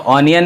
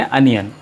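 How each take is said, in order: First: The word begins with an open 'aw' vowel. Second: The word begins with a short 'uh' vowel. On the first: The speaker calls it wrong. "ऑनियन नहीं" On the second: The speaker calls it right. "आज से पढ़ेंगे अनियन"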